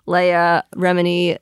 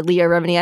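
First: "Leah" said as LAY-uh; "Leah" with an AY vowel; mispronounced name. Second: Said in the usual way. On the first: Real, not acted. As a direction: stumble on "Leah", saying LAY-uh. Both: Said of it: "can't say her name".

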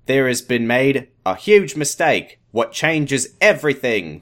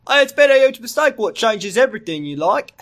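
First: Slow, put-on Australian accent. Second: High, broad parody Australian; mock Australian accent. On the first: Doctor reveals a huge mistake, slow Australian accent. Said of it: "an Australian accent". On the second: Co-reader parodies the doctor's huge mistake, mock Australian accent. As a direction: blurt it in an over-the-top Australian accent.

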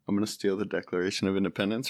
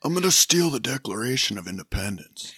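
First: Hushed, quick, barely there Cage line; quiet Nick Cage impression. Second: A lightly voiced Nick Cage, steadier and fuller; Nick Cage impression. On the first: First try at Nick Cage for the hosts, quiet and rushed. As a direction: mumble it fast and soft like a timid Nicolas Cage. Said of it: "let's see, Nick Cage". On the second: Second Cage take after doing the face, better landed. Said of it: "that was really good".

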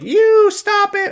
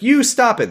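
First: Put-on very high, slow baby squeak. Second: Put-on high baby voice, a little faster. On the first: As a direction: pipe it like a tiny toddler. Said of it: "Rose is like". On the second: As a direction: squeak it as the toddler again. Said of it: "sorry, she's like".

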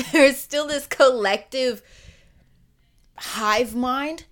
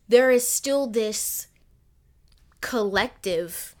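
First: Louder retake, laughing; laughing through it. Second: Said in the usual way. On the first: Real, not acted. Podcaster laughing as she restarts her thought, laughing loudly. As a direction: laugh as you restart the line. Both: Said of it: "laughs, retakes the line".

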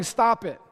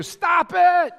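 First: Said in the usual way. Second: Sudden loud shout, high and forceful; yelling. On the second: Real, not acted. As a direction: bark it out to jolt the crowd. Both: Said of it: "here's why I'm yelling".

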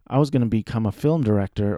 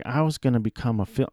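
First: Said in the usual way. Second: Put-on quick, light Southern accent; accidental touch of a Southern accent. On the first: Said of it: "I don't know why I did a Southern accent". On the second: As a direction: quote him with a slight Southern twang. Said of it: "I did a Southern accent".

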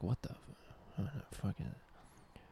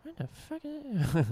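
First: Hushed whisper. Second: Put-on much higher, slow squeaky voice of a startled kid. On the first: Retold or imitated. Hushed first take of quote. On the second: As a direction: squeak it out like a spooked Goosebumps kid. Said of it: "or I mean more like".

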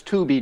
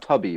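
First: "Tubi" as TOO-bee, with a long OO; correct pronunciation. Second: "Tubby" as TUH-bee, with a short U; wrong pronunciation. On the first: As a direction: stretch the OO in "Tubi". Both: Shown as a demonstration. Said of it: "not Tubby, right?".

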